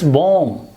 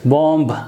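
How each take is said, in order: First: The word ends on the m sound. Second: A b sound is pronounced at the end. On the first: The speaker calls it right. "Ba sound will not be pronounced" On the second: The speaker calls it wrong. "You might have heard people pronouncing this word as bomb"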